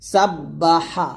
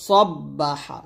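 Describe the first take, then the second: First: সাব্বাহা slow, light and thin; thin drawn-out sa. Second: সব্বাহা slow with a thick, heavy স; heavy drawn-out sa. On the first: Teacher contrasting thin সাব্বাহা for students. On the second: Teacher contrasting heavy সব্বাহা for students. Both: Shown as a demonstration. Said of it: "সব্বা বলতে হবে".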